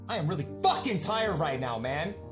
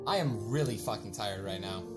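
First: It sounds heated and angry. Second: It sounds weary and exhausted.

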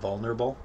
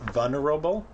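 First: The L sound is pronounced in the word. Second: The L sound is left out of the word.

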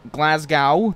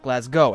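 First: It is said with an American pronunciation. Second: It is said with a British pronunciation. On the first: The speaker calls it wrong. "that's how I'd say it over here in Boston" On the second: The speaker calls it right. "as it's, you know, supposed to be"

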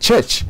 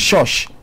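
First: The word begins and ends with a 'ch' sound. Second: The word begins and ends with a 'sh' sound. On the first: The speaker calls it right. "instead of church" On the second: The speaker calls it wrong. "I have been to the shosh instead of church"

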